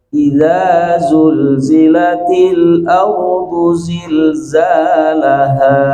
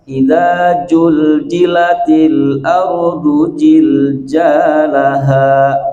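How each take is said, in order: First: The consonants are said with a hissing z sound. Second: The consonants are said with a j sound. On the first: The speaker calls it right. "kesalahan dalam huruf zai dibaca huruf ja" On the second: The speaker calls it wrong. "ada yang bacanya"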